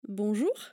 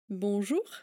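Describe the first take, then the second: No difference in how they are said.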